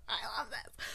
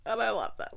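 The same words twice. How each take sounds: First: Delighted whisper; hushed, giddy whisper. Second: Said in the usual way. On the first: Real, not acted. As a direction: whisper it like a secret. Whispered repeat.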